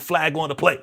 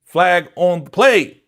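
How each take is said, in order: First: Said in the usual way. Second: Louder, slow, deliberate; slow booming referee call; emphatic referee call. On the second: Retold or imitated. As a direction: call the penalty like a ref.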